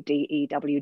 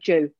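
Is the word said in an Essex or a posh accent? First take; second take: posh; Essex. First: The word is said in a posh accent. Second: The word is said in an Essex accent. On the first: "when you're from Essex, you don't say DEW" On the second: "You say dew"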